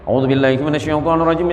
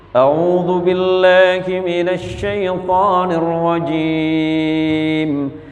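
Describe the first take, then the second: First: It is recited quickly. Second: It is recited slowly and carefully. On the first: "Ada yang terakhir hadar" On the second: "Kalau tartil itu begini baca"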